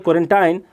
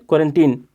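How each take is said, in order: First: It ends like 'tine', in a British accent. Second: It ends like 'teen', in an American accent.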